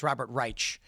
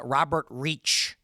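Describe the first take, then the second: First: "Reich" with a long i and ch, "rytch"; Reich as "rike-ch". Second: "Reich" said like "reach" with a ch ending; Reich as "reech". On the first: Host corrects his guess at the name, "Reich" pronounced "rytch". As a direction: say "Reich" as "rye" plus ch. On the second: Host guesses at a guest columnist's name, "Reich" pronounced "reech". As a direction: say "Reich" to rhyme with "beach". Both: Shown as a demonstration. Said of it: "don't know how to pronounce his name".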